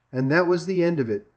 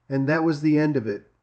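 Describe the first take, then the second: No difference in how they are said.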